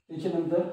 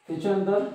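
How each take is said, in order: Both takes have the same delivery.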